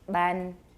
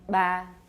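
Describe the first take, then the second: First: The syllable ends with a full n consonant. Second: The syllable ends on a nasalized vowel. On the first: "let's do an N" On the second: "and then a nasalized vowel"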